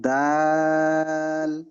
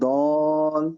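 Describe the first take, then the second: First: The vowel is an open 'aa' sound. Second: The vowel is a rounded 'o' sound. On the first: The speaker calls it right. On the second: The speaker calls it wrong.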